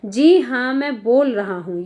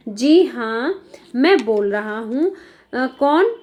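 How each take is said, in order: First: Said in the usual way. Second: Slow, measured doctor answering the phone; lightly voiced doctor taking a call. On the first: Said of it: "ये doctor की कही हुई line है". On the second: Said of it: "ये doctor की line है". (धीमे ठहरे स्वर में डॉक्टर)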